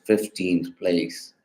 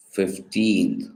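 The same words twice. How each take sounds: First: "fifteenth place" with the stress on FIF; stress on first syllable. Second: Put-on "fifteenth" with the stress on TEENTH; stress on second syllable. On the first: Student contrasting phrase with word, "fifteenth place" stressed on FIF. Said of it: "the stress is on the first syllable". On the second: Student contrasting word and phrase, "fifteenth" stressed on TEENTH. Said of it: "stressed on the second syllable". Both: Shown as a demonstration.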